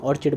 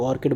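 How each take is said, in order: First: Put-on "ऑर्चिड" pronounced OR-chid, not OR-kid; ch pronunciation. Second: Put-on "ऑर्किड" pronounced OR-kid, not OR-chid; k pronunciation. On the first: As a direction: say "ऑर्चिड" with a ch sound in the middle. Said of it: "ऑर्चिड बोलते हैं इसको". ("ऑर्चिड" में बीच में "च" की आवाज़) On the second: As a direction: say "ऑर्किड" with a hard k in the middle. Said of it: "कुछ लोग ऑर्किड बोलते हैं". ("ऑर्किड" में बीच में "क" की आवाज़) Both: Shown as a demonstration.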